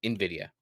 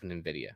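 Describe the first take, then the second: First: "nvidia" restated as in-VID-ee-uh; self-corrected pronunciation. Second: "nvidia" fumbled with an extra n in front; slipped pronunciation. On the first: Host catches his own slip, correcting "nvidia" to in-VID-ee-uh. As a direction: correct "nvidia" to a clean "in" opening. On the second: Host slips while reading about the CEO, "nvidia" with extra n. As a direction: trip into "nvidia" as nin-VID-ee-uh. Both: Real, not acted. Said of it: "Wow, I just did it".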